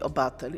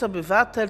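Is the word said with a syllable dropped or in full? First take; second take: dropped; full. First: A middle syllable of the word is dropped. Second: Every syllable of the word is pronounced. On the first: The speaker calls it wrong. "polityk mówi obatel" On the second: The speaker calls it right. "zamiast obywatel"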